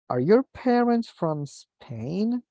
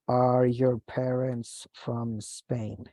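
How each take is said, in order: First: The pitch rises at the end. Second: The pitch stays flat and falls at the end. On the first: It is a real yes/no question. The speaker calls it right. "we need to raise the intonation" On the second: It sounds like a statement, not a question. The speaker calls it wrong. "a blunt intonation"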